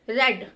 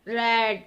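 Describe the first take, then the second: First: The vowel is short and said abruptly. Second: The vowel is drawn out and not clipped. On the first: The speaker calls it right. "झटके से ए बोलते हैं" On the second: The speaker calls it wrong. "रेड ऐसे नहीं पढ़ते ना"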